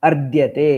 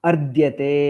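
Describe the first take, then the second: No difference in how they are said.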